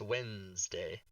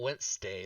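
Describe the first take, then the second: First: The middle consonant is a buzzed Z sound. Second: The middle consonant is a hissed S sound. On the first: The speaker calls it right. "you meant more of a Z than an S" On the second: The speaker calls it wrong. "It's not Wednesday"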